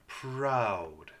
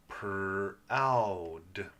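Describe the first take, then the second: First: Said in the usual way. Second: "Proud" as PER, long OW, D; sounded out. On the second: Shown as a demonstration. Teacher sounding out R vowel word, segmented. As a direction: stretch "Proud" piece by piece. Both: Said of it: "There's that R vowel sound".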